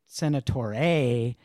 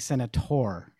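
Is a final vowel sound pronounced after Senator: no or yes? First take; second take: yes; no. First: An extra vowel sound is said after Senator. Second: The word ends without an extra vowel sound. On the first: The speaker calls it wrong. "you don't say Senator A" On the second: The speaker calls it right. "You say Senator"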